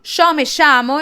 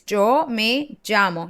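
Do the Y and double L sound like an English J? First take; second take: no; yes. First: The Y and LL do not sound like J. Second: The Y and LL sound like English J. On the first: "In Argentina, this is completely untrue" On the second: "my Y and my double L sounds like a J in English"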